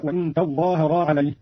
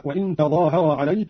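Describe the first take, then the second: First: تظاهرا said "tazzhāharā"; doubled zha. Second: Said in the usual way. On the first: Shown as a demonstration. Teacher demonstrating Qalun, تظاهرا with doubled second consonant. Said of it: "بتشديد الضاد هكذا". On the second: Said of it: "قرأ قانون بتشديد الضاد".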